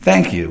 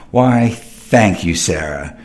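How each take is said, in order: First: Said in the usual way. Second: Mock flattered. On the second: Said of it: "You're looking really handsome tonight".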